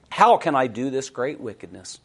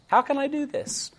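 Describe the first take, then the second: First: Said in the usual way. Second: High, soft pleading question; pleading high quote. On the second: Acted. Preacher voicing Joseph refusing temptation, high and pleading. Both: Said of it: "quoting Joseph's refusal".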